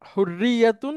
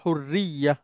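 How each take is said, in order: First: The word ends with the full -atun ending. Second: The word is cut short, ending in -ya. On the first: The speaker keeps going after the word. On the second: The speaker stops after the word.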